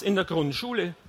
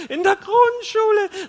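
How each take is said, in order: First: Said in the usual way. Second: Very high, loud, drawn-out mocking echo; laughing disbelief. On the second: A narrator's reading. Wife mocks husband's primary-school promise, shrieking laughter. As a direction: shriek it back in hilarity. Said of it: "Dann lachte sie los".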